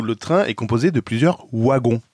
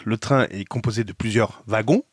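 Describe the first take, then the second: First: Wagons said with an English W sound, "wagon"; Belgian French. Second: Wagons said with a V sound, "vagon"; French from France. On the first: Youtuber demoing the Belgian French reading of wagons, "wagon". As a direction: say wagons starting with a W, the way Belgium says it. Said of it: "comme en français belge". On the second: Youtuber demoing the France French reading of wagons, "vagon". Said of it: "comme en français France". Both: Shown as a demonstration.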